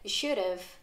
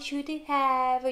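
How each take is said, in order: First: "Have" is reduced and merged into "should." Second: "Have" is pronounced as a full separate word. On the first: The speaker calls it right. "줄임의 형태로" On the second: The speaker calls it wrong. "I should have 이렇게 발음을 하지 않고"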